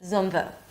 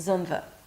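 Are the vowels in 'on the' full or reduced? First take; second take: reduced; reduced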